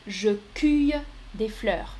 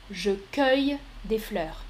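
First: Cueille said as "kuy", u vowel; first option. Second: Cueille said with the "eu" of "feuille"; correct option. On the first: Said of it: "Je répète". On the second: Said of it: "C'est la deuxième option qui est correcte". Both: Shown as a demonstration.

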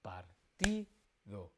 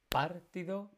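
First: Partido slowly as par-TI-do; stress on TI. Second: Partido as PÁR-tido, first syllable high; wrong stress on PAR. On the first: Teacher answering where the tónica is, Partido slowly with TI stressed. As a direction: separate the syllables and hold TI in Partido. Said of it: "Cuál es la tónica". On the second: Teacher testing a wrong stress for students, Partido with stress moved to PAR. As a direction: punch PAR in Partido, rush the rest. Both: Shown as a demonstration.

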